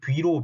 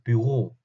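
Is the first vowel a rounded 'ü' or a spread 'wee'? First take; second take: spread wee; rounded ü. First: The first vowel glides into a spread 'wee' sound. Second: The first vowel is a steady rounded 'ü' sound. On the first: The speaker calls it wrong. "흔히 뷔로, 뷔로 이렇게 하는데 그게 아니라" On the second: The speaker calls it right. "그게 아니라 뷰로"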